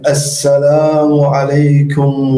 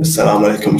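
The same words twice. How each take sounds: First: It is said in a put-on, formal preaching voice. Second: It is said in a plain, everyday speaking voice. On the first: It creates a barrier between speaker and listener. "هناك فرق" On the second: There is no barrier between speaker and listener. "ممكن أنا الحين أتكلم معاكم"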